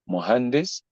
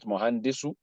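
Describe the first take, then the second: First: The word ends on a consonant, no vowel. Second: The word ends with a final vowel sound. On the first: The speaker calls it right. "because you don't want to pronounce the last vowel" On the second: The speaker calls it wrong. "not mohandisu"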